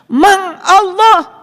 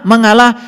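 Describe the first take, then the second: First: The word is said slowly, syllable by syllable. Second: The word is said at normal speed.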